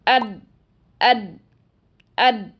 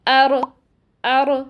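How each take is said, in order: First: The r is fully blocked, sounding like a d. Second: The r is clipped with a bouncing, echoing release. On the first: "बीच में होल ही नहीं छोड़ते, तो फिर ऐसी आवाज़ आती है" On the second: "जल्दी से अदा कर देते हैं, जिसकी वजह से रॉ में कलकला किसी आवाज़ पैदा हो जाती है"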